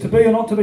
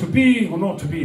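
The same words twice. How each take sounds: First: It is said in a British Midlands accent. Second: It is said in a standard theatrical accent.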